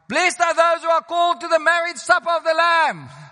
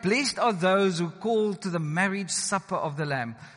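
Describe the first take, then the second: First: The line is read as an excited exclamation. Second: The line is read in a calm, plain way. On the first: The speaker calls it right. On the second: The speaker calls it wrong.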